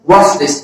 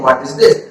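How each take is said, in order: First: The word 'is' is contracted onto 'what'. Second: The word 'is' is said as a separate word.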